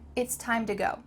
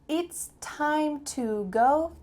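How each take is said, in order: First: The word 'to' is reduced to 'da'. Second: The word 'to' is said in full.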